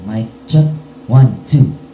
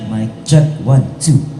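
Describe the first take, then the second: First: The voice is dry with no added reverb. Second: The voice has reverb added at normal level. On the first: "dry muna" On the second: "lagyan din naman natin ng reverb"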